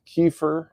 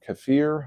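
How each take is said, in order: First: KEFIR as KEE-fer, stress up front; first pronunciation variant. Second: KEFIR as keh-FEER, stress at the end; alternative pronunciation. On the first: Offering clients one way to say it, KEE-fer kefir. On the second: Offering clients the other way, keh-FEER kefir. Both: Shown as a demonstration. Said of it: "however you wanna say it".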